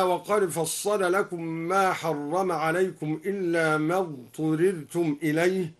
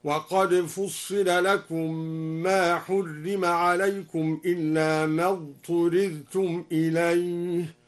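First: Said in the usual way. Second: Slow passive recitation, "فصل" as fussila, "حرم" as hurrima; al-Duri reading. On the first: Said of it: "قرأ الدوري بضم الفاء وكسر الصاد". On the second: Shown as a demonstration. Teacher demonstrating the passive reading, "فصل" and "حرم" slowly chanted with u-i vowels. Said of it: "بضم الفاء وكسر الصاد وضم الحاء من حرم".

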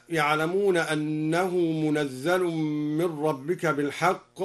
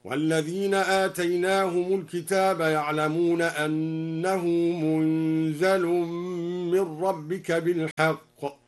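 First: Said in the usual way. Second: Recitation with "منزل" as munzal, held n and light z; al-Duri reading. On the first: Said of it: "قرأ الدوري بإسكان النون وتخفيف الزاي". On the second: Shown as a demonstration. Teacher demonstrating al-Duri's verse, chanting "منزل" with vowelless n, single z. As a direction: chant "منزل" as munzal, drawn out, z not doubled. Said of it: "هكذا".

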